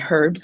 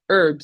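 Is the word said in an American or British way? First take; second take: British; American. First: It is said the British way. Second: It is said the American way.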